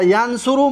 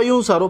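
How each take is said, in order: First: ینصرو said "yan-su-ru"; "a" first, "u" in the middle of ینصرو; active-voice vowels. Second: یونسرو said "yun-sa-ru"; "u" first, "a" in the middle of یونسرو; passive-voice vowels. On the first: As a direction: open with "yan", then "su" in ینصرو. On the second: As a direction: open with "yun", then "sa" in یونسرو. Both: Shown as a demonstration.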